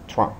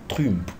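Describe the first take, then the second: First: The name is said with English-style sounds. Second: The name is said with French-style sounds. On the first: "ils prononcent le nom comme les anglophones le prononcent" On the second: "Je n'ai jamais entendu un commentateur ou un journaliste français dire Donald Trump"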